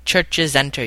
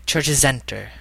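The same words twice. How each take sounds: First: Said in the usual way. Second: "churches enter" run together as one word; French-style liaison. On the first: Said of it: "Like, if you're saying". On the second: Shown as a demonstration. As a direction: link the final consonant of "churches" straight into "enter". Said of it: "Then you just connect them".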